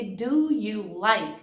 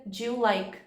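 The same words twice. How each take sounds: First: "do you like" slowly, words separate; careful full form. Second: "do you like?" run together as "djulike"; connected speech. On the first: Teacher showing the unlinked form before the linked one, slow. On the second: Teacher showing how the words link, run together. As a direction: blend "do you like?" into one quick sound. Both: Shown as a demonstration.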